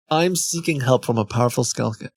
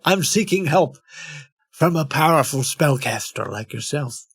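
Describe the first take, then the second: First: Said in the usual way. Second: Put-on supplicant. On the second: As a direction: read it as a mock seeker's plea. Restarts plea in put-on voice.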